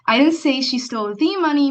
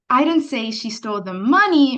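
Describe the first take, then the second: First: The stress falls on the word stole. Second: The stress falls on the word money. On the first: It was a different kind of theft. "means maybe it was a different kind of theft" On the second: Something other than the money was taken. "means maybe she didn't steal the money, but she stole something else"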